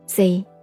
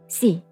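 First: The word is said with Cantonese pronunciation. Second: The word is said with Hakka pronunciation. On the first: "广东话是读C" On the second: "客家话是C"

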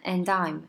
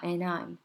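First: The d clearly links into 'I'm'. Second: The d is dropped, leaving mostly an n. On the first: "很明显的And I'm" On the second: "有点介于N 的感觉哈"

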